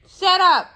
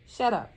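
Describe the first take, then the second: First: "Shut up." yelled much higher and louder; a loud shouted "Shut up.". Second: Said in the usual way. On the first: Real, not acted. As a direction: yell "Shut up." at him.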